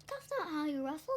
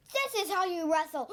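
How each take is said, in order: First: Said in the usual way. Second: Raised voice breaking into a high cry; hammed-up taunt. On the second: Child acts out Billy wrestling, raised hammed-up taunt. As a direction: act it big, ending on a gasped yell. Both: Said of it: "and then Billy says".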